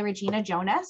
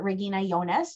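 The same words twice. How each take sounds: First: The name is said with English pronunciation. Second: The name is said with German pronunciation.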